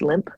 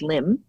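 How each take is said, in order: First: The name ends with a p sound. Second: The name ends with an m sound. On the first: The speaker calls it wrong. "He thinks it's limp" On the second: The speaker calls it right. "It is pronounced limb"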